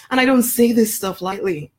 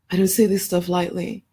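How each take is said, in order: First: "don't" pushed hard, a little higher; emphatic. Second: Softer, stress moved onto "say"; quieter repeat. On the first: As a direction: press on "don't" so the promise lands. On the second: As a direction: echo it more softly, leaning on "say". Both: Real, not acted.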